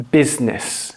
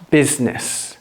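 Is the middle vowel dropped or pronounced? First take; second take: dropped; dropped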